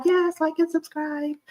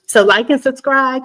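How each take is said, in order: First: Very high, softer bubbly voice; giddy high-pitched repeat. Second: Loud, higher-pitched call to subscribe; bubbly and projected. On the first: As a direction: lift it up high and light. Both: Real, not acted. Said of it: "I get all bubbly".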